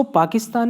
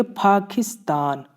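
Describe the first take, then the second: First: Said in the usual way. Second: पाकिस्तान with a breathy aspirated ph; Korean pronunciation. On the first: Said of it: "इसको पाकिस्तान नहीं पढ़ेंगे". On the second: Shown as a demonstration. Teacher models the correct Korean पाकिस्तान. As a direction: puff air on the p of पाकिस्तान. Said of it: "इसको पढ़ेंगे पाकिस्तान".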